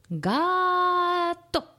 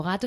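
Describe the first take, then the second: First: "gato" with GA held long and high, then a short TO; "gato" as a long raised GAAA and a brief TO; stressed-syllable demo. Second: Said in the usual way. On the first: Shown as a demonstration. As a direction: stretch the tonic GA of "gato" way out, then drop TO like a clap. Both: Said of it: "cuando llegamos a la sílaba tónica".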